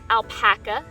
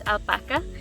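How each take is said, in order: First: The word is said with an English pronunciation. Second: The word is said with a Spanish pronunciation. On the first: This is how people usually say it. The speaker calls it wrong. "in the United States and other English-speaking countries, it's often pronounced alpaca" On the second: This follows the word's origin language. The speaker calls it right. "it is a Spanish word, and it is pronounced alpaca"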